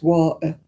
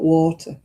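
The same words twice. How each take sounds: First: The t sound in the middle is dropped. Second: The t sound in the middle is pronounced. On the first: "in Salford it's" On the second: "It's not"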